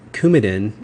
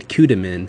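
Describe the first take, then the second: First: It is said as Coumadin, the standard form. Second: It is said as Coudamin, with sounds swapped. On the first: The speaker calls it right. "instead of saying uh, Coumadin" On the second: The speaker calls it wrong. "they'd say Coudamin"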